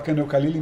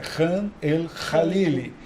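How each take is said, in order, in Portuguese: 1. Começa com um k simples e duro. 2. Começa com um som rouco e raspado da garganta. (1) "a gente já fala" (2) "mas é ... vocês têm que falar como se tivesse dois R's"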